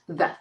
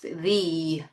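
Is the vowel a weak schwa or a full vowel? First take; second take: schwa; full vowel. First: The vowel is a weak schwa sound. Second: The vowel is a full, unreduced sound. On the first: "again with the schwa sound" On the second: "So very different"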